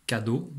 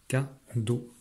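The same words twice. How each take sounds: First: Said in the usual way. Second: "Cadeau" in two parts, a pause between ca and deau; split into syllables. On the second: Shown as a demonstration. Teacher marking syllable arcs, each part alone. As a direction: separate the two beats of "Cadeau". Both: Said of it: "les syllabes sont les morceaux de mots".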